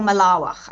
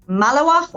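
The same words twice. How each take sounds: First: Malawach stressed on the middle syllable; malawach, alternative pronunciation. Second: Malawach stressed on the first syllable; malawach, first pronunciation. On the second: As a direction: lean on the opening of malawach. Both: Shown as a demonstration. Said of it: "I don't know how you pronounce it".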